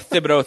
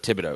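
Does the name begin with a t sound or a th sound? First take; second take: th; t. First: The name begins with a th sound. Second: The name begins with a plain t sound. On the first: The speaker calls it wrong. "I'm going to pronounce the TH" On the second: The speaker calls it right. "excuse me"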